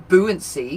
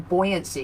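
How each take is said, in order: First: The first syllable sounds like 'boo'. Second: The first syllable sounds like 'boy'. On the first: The speaker calls it wrong. "you don't say buoyancy" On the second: The speaker calls it right. "You say buoyancy because it's boy"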